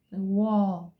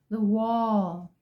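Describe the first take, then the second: No difference in how they are said.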